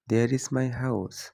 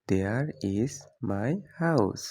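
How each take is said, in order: First: Said in the usual way. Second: Very slow, every word separate; slow clear repeat. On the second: Shown as a demonstration. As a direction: stretch it out for learners. (খুব ধীরে স্পষ্ট করে) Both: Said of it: "example then repeated slowly".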